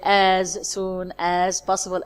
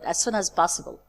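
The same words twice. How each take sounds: First: Each word is said separately with small stops. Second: The words run together like one word. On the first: The speaker calls it wrong. "as our students usually do. No" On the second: The speaker calls it right. "we pronounce them as if they are just one word"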